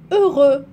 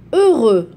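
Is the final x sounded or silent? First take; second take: silent; silent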